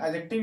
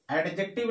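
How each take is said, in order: First: Adjective said "a-jective", the D left silent; एडजेक्टिव with no D before the J sound. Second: Adjective said "ad-jective", with the D pronounced; एडजेक्टिव with an audible D before the J; sounded D. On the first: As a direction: say एडजेक्टिव as "a-jek-tiv", dropping the D. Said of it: "इसका real pronunciation". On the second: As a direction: say एडजेक्टिव as "ed-jek-tiv", D and J both heard. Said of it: "नहीं होता है, बोल देते हैं". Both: Shown as a demonstration.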